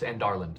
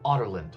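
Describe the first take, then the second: First: The name begins with an 'and' sound. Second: The name begins with an 'otter' sound. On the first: This matches the spelling and the author's website. The speaker calls it right. "pronounced Andarland" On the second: This is how the audiobook says it. The speaker calls it wrong. "I listened to the audiobook where they called it Otterland"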